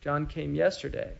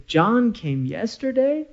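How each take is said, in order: First: "John came yesterday." said softly, falling at the end as a plain statement; flat declarative statement. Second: "John came yesterday?" slower, pitch climbing to the end; rising question. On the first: Teacher demonstrating a statement to students, soft falling tone. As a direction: state it as a fact, tone dropping at "yesterday". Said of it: "declarative sentence". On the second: Teacher showing how intonation makes a question, rising tune. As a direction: ask it in surprise, voice rising on "yesterday". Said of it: "ta'ajjub or surprise ... interrogative".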